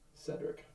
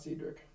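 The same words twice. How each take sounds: First: The first syllable sounds like 'said'. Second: The first syllable sounds like 'seed'. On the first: The speaker calls it right. "It's like said" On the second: The speaker calls it wrong. "it's not seed"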